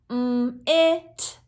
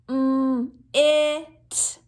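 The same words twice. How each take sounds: First: The sounds are said quickly and close together. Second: The sounds are said slowly and apart. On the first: "Let's speed it up" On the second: "One more time"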